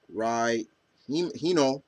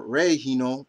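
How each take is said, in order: First: "Rai" said to rhyme with eye; Rai pronunciation. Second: "Rei" said to rhyme with day; Ray pronunciation. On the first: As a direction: give "Rai" the EYE vowel. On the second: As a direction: give "Rei" the AY vowel. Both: Shown as a demonstration. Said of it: "they kind of pronounce it Ray or Rai".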